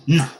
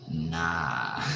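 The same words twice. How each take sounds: First: Short, loud mimicked nah; imitated nah. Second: Long, lower, lazy NAH; NAH held long and unhurried; drawn-out nah. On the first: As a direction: punch out one abrupt nah. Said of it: "You say it just like that". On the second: Shown as a demonstration. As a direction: stretch NAH out slowly, letting it fall. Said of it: "I don't say it like that. I say".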